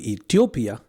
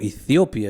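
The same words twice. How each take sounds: First: It is said with the speaker's local pronunciation. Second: It is said with the Western listeners' pronunciation.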